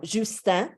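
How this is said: The name is pronounced the French way. "in in French"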